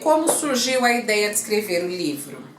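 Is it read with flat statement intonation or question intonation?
flat statement. It is read flatly like an ordinary statement. The speaker calls it wrong. "Eu não posso ler como surgiu a ideia de escrever o livro"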